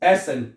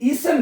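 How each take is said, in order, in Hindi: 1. पहला स्वर खुला 'eh' वाला है। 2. पहला स्वर लंबा 'ee' वाला है। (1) "ई को ए पढ़ना है आपने" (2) "ईसन नहीं करना है इसको"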